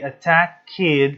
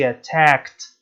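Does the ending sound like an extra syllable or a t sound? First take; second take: extra syllable; t sound. First: The ending is said as an extra syllable. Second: The ending is said as a short t sound. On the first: The speaker calls it wrong. "we don't say attack kid, no, we don't say that" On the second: The speaker calls it right. "We say attacked"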